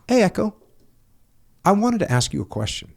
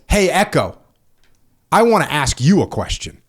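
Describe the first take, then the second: First: It is said in a light, friendly tone. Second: It is said in a cold, angry tone. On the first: It is a harmless request. "it doesn't say" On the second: The writer is upset and looking for a fight. "read it from the worst case scenario"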